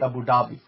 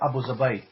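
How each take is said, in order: First: It is said the way English speakers say it. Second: It is said the way Arabic speakers say it. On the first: "you guys don't pronounce it the way they pronounce it" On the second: "They call it Abu Zabai"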